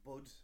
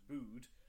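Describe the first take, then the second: First: The vowel is short, rhyming with 'bud'. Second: The vowel is long, rhyming with 'dude'. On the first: "or it might be Bud, and the E might be silent" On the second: "it might be pronounced like dude"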